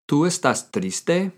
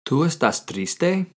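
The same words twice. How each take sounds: First: Slow repeat rising on triste; teacher repeating the question slowly; slow model question. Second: Slow Spanish question rising on triste; teacher modelling the question slowly; slow model question. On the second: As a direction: ask it slowly, lifting at the end. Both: Shown as a demonstration. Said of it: "How do you ask someone, "Are you sad?".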